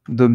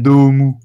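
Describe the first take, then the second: First: Said as one plain French-style syllable. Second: Said Japanese-style with a long vowel and added final vowel.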